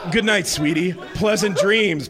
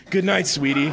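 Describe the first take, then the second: First: A little higher and brighter, teasing; mocking sweet goodnight; mocking purr. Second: Purred. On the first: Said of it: "somewhat mockingly". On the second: Acted. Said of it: "Passion purred".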